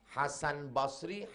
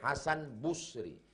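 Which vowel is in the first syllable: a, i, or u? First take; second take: a; u. First: The first syllable has the vowel a. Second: The first syllable has the vowel u.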